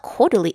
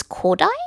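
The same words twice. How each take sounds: First: Kodali in three syllables, ending in "lee"; mistaken pronunciation. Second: Kodai in two syllables, KOH-dye; corrected pronunciation. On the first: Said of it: "it's not Kodali". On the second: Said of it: "It's Kodai?". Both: Shown as a demonstration.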